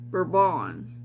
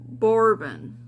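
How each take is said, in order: First: The name is said with its native pronunciation. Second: The name is said with an English-style pronunciation.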